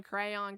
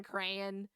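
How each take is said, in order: First: "crayon" ending in a full on sound, cray-on; crayon, full second vowel. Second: "crayon" with a weak second syllable, cray-un; crayon, reduced vowel. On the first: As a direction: say "crayon" with a clear on. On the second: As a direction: swallow the end of "crayon". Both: Shown as a demonstration. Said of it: "caramel versus caramel".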